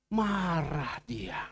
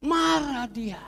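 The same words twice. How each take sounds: First: Drawn out slowly and low; slow, heavy. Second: Emphatic. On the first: Pastor slowly stressing Jesus' anger, drawn out. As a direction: let it sink, slow and grave. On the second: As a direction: punch it out the second time. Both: Shown as a demonstration. Jesus angry at fig tree.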